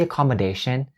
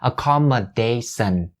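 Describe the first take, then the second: First: The last syllable starts with a sharp sh sound. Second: The last syllable starts with a soft s sound. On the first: The speaker calls it right. "a very sharp sh sound" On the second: The speaker calls it wrong. "instead of the soft s sound. So don't say accommodation"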